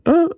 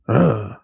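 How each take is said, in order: First: Its pitch moves up and down. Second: It is said in a deep, low voice. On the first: It shows the speaker's own style. "I'm more like up and down with it" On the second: It imitates another rapper's style. "his shit was more like deep voice"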